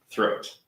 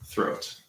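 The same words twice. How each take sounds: First: Said in the usual way. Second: Breathy whisper of the word Throat. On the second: Shown as a demonstration. Sounding out the clue word, whispered. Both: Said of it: "There we go".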